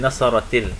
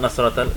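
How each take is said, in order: First: An added 'i' vowel links the two words. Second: The two words meet with no linking vowel. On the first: The speaker calls it right. "you put a kasra underneath it" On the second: The speaker calls it wrong. "Not Nasrat al"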